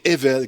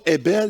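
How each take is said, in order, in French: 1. La consonne du milieu est un son V. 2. La consonne du milieu est un son B. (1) "mais Evel, comme le B qui est mis en V" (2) "non pas Ebel"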